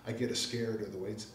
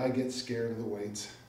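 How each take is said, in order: First: The word scared is said in a local way. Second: The word scared is said in a standard way.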